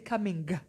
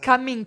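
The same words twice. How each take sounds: First: The word ends with an audible hard G. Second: The word ends without an audible hard G. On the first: The speaker calls it right. "if I'm going to say the G, I'll say coming" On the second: The speaker calls it wrong. "Not coming"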